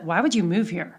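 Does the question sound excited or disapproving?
disapproving. It is asked in a disapproving, discouraged tone.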